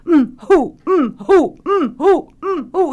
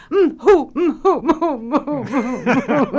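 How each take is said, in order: First: High, loud repeated "mm, hoo" sobs; comic sobbing. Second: High, loud "mm, hoo" sobs sped up, breaking into laughter; faster comic sobbing. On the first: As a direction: keep the fake sob going steadily. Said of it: "'mm, who,' and keep saying it". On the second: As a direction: rattle off the fake sobs quicker. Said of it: "Now say it faster". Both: Retold or imitated.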